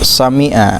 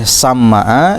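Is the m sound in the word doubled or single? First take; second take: single; doubled. First: The m has an i vowel and is single. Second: The m has an a vowel and is doubled. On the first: This is how the narration of Al-Khattabi has it. "Bi kasril mim dengan kasrah mim al mukhaffafah tanpa tasydid" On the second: This is how the earlier reading has it. "dibaca fathah mimna bari ditasydid"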